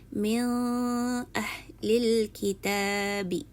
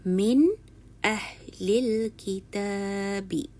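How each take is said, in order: First: The n sound is blurred, not clearly pronounced. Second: The n sound is pronounced clearly and distinctly. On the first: The speaker calls it wrong. "bukan dibaca dengan ... Salah" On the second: The speaker calls it right. "Yang betul"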